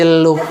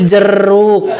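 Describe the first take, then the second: First: The middle consonant is an l sound. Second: The middle consonant is an r sound. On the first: A small child is saying it. The speaker calls it wrong. "sanes jeluk bager jeruk" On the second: The mother is saying it. The speaker calls it right. "cek ibu-ibu nanti jeruk"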